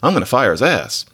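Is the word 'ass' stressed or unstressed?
stressed. The word 'ass' carries strong stress. The buttocks are meant literally. The speaker calls it wrong. "You don't even put the accent on ass. You don't say"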